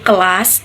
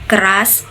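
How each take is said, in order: First: The middle consonant is an L sound. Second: The middle consonant is a rolled R sound. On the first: This is how a child says it. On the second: This is the adult form.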